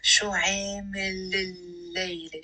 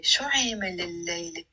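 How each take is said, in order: First: شو عامل الليلة stretched slowly, linked without a break; slow liaison demo. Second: Said in the usual way. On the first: Shown as a demonstration. Teacher showing the liaison to learners, slow and linked. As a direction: draw out the l joining عامل to الليلة. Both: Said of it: "notice how I'm saying it with a liaison".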